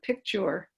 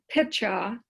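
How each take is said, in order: First: The middle k sound is pronounced: picture. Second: The middle k sound is dropped: pitcha. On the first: The speaker calls it right. "instead of picture in terms of pronunciation" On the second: The speaker calls it wrong. "you use the word pitcha"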